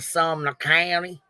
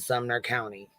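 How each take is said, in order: First: It is said in a put-on accent. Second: It is said in a natural accent.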